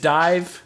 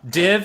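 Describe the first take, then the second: First: The vowel is long, as in dive. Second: The vowel is short, as in did. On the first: The speaker calls it right. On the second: The speaker calls it wrong.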